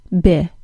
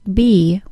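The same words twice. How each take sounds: First: The syllable has a short i vowel. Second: The syllable has a long e vowel. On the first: The speaker calls it right. "with a short I sound" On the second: The speaker calls it wrong. "not b with a long e sound"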